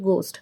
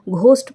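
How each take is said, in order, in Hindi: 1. पहला व्यंजन सादी 'g' आवाज़ है। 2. पहले व्यंजन में सांस वाली 'gh' आवाज़ है। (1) "आप इसको बोलेंगे गोस्ट" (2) "अगर आप इस वर्ड को घोस्ट प्रोनाउंस करते हैं तो इट्स टोटली रॉन्ग"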